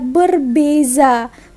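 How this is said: The middle consonant is a z sound. This is the Malaysian way of saying it. "Tapi kalau di Malaysia lain lagi ya"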